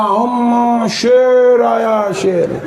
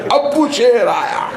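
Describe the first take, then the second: First: Put-on high, slow drawn-out child cry; hammed-up child alarm. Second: High, slow child's mock cry; hammed-up child alarm. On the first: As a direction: stretch it out like a scared kid. Child announcing father's arrival. ("अम्मा, शेर आया" खिंचा हुआ, बच्चे की डरी आवाज़) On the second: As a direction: call it out like a giggling kid. Child announcing father again. (बच्चे की नकली डरी आवाज़, ऊँची और धीमी)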